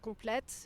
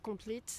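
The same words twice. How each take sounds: First: It is said with a French pronunciation. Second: It is said with an English pronunciation.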